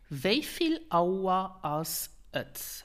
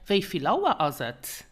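First: The phrase is said slowly and carefully. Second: The phrase is said at natural conversational speed. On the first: "Let me repeat" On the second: "Or more natural"

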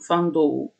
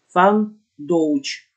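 First: The word 'dough' ends in an open vowel glide. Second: The word 'dough' ends in a 'ch' sound. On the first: The speaker calls it right. "там «Фан Доу»" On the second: The speaker calls it wrong. "говорит «Фан Доуч»"

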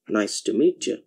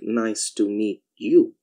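First: The phrase is spoken quickly with sounds merged. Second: The phrase is spoken slowly and carefully. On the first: "try to say it at a faster pace" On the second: "at a leisurely pace"

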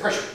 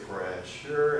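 First: The word is said quickly and sharply. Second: The word is said slowly and gently. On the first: Apply the pressure quickly. "we want it fast" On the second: Apply the pressure slowly and easily. "it's just really slow and easy"

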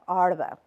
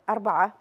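First: It is said in the local UAE dialect. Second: It is said in standard Arabic.

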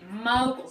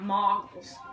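First: The first syllable has a long 'oh' vowel. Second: The first syllable has a short 'o' vowel. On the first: The speaker calls it right. "I've been told that's how you pronounce it" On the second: The speaker calls it wrong. "not moggles"

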